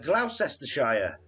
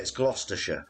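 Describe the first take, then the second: First: It is said with an American pronunciation. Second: It is said with a British pronunciation. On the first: The speaker calls it wrong. "as the Americans uh, say it" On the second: The speaker calls it right.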